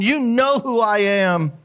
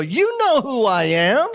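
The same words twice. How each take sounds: First: Slow "You know who I am" falling steadily to the end; "You know who I am" drawn out and final, high then falling; firm statement. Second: Slow, high "You know who I am" rising on "am"; "You know who I am" as a drawn-out challenge, rising at the end; asked as a question. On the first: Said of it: "He's making a statement". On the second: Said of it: "he's not asking a question". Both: Acted.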